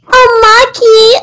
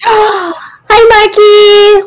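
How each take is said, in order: First: It is said in a very high-pitched voice. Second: It is said in a normal voice.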